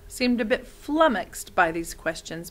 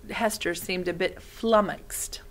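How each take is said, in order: First: Said in the usual way. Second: Whispered, slow "flummoxed"; slow breathy whisper on "flummoxed"; flummoxed spoken carefully. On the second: Shown as a demonstration. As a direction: hush and stretch out "flummoxed" for the children. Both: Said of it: "That means a bit confused".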